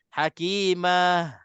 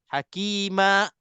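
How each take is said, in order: First: The word ends with a breathy h sound. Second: The word ends with a sharp glottal stop. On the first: "terlebih relax... keluar angin sikit je, itu huruf ha" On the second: "kita break betul-betul dan kita kawal nafas... dia seolah-olah ada hamzah"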